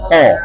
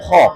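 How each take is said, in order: First: The vowel is produced forward, from the tongue. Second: The vowel is pushed back into the throat. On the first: The speaker calls it right. "Fokus perhatian di pangkal lisan. ... ini nih benar" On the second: The speaker calls it wrong. "kalau kita nggak fokus, masuk ke tenggorokan dia"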